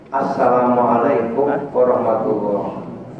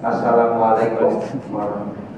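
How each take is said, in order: First: Said in the usual way. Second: Quick salam. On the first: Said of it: "Yang bener itu salamnya gini". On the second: Shown as a demonstration. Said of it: "salamnya gini".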